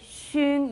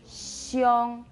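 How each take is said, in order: First: The syllable is said with a plain 'u' vowel. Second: The syllable is said with an 'io' vowel glide. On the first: The speaker calls it wrong. "you don't say shung" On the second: The speaker calls it right. "you say xiong"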